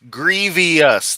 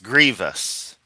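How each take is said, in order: First: It is said with an extra syllable. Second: It is said with two syllables. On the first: The speaker calls it wrong. "not grievous. There is no I" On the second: The speaker calls it right. "It's grievous"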